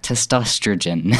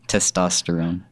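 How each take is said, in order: First: The word ends with a 'rogen' sound. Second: The word ends with a 'rone' sound. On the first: "There are a lot of people that I've talked to and they're like" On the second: "Say it again for me"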